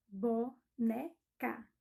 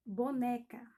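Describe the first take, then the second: First: "Boneca" very slowly in three beats, BO, NE, CA; separando as sílabas. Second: Said in the usual way. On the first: Shown as a demonstration. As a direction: say "Boneca" with a pause after each syllable. ("Boneca" bem pausado: bo, ne, ca)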